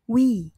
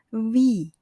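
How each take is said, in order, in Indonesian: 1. Kata ini diawali dengan bunyi W. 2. Kata ini diawali dengan bunyi V. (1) "Jika dilafalkan dengan cara pengucapan bahasa Indonesia" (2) "Yang benar adalah vi"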